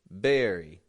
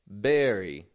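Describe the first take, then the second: First: The word begins with a B sound. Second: The word begins with a B sound.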